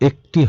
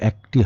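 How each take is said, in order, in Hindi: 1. पहला स्वर बंद e ध्वनि है। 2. पहला स्वर खुला ae ध्वनि है। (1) "হবে" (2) "হবে না"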